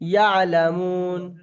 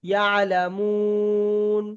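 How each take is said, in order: First: The vowel is stretched for a short length. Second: The vowel is stretched for a medium length. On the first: "আমি একালিপ টান দিয়ে পড়ছি" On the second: "দু আলিপ টান দিই, তাহলে একটু বেশি টান দিতে হবে"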